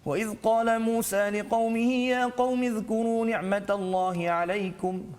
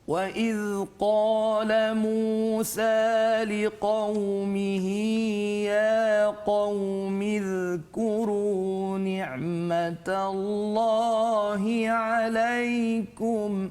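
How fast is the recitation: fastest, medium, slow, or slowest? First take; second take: fastest; slowest. First: It is recited at a very fast pace. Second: It is recited very slowly and melodically. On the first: "bacaan yang paling laju pula dipanggil sebagai Al-Hadar" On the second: "Tingkatan yang paling perlahan disebut sebagai tahqiq"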